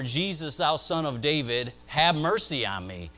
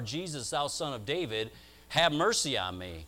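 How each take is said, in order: First: It is cried out at its loudest. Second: It is cried out in a raised voice.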